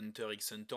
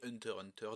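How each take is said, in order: First: The x is spoken between the two words. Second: Nothing is spoken between the two words. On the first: "on ne dit pas Hunter x Hunter" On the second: "je suis de la team qui ne dit pas Hunter x Hunter, mais Hunter, Hunter"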